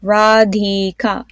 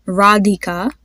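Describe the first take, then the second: First: "Radhika" drawn out syllable by syllable; teacher's slow repeat-after-me "Radhika"; slow modelled "Radhika". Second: Said in the usual way. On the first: Shown as a demonstration. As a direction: sound out "Radhika" slowly, with breath on the dh. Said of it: "So say that with me". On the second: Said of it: "The D H has that specific sound".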